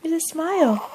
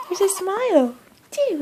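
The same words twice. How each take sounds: First: Higher, louder delighted coo. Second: Much higher, louder joyful squeal. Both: Real, not acted. Delighted at baby smile.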